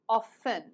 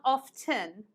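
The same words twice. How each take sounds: First: The T sound is silent. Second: The T sound is pronounced. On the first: The speaker calls it right. "do you see the T is silent?" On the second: The speaker calls it wrong. "It's not often"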